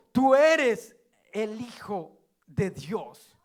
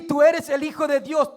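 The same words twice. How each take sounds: First: Slow solemn. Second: Loud proclamation. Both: Shown as a demonstration.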